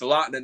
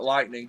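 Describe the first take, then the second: First: The word ends without a g sound. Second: The word ends with a clear g sound. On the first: The speaker calls it right. "Drop the G" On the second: The speaker calls it wrong. "not Lightning"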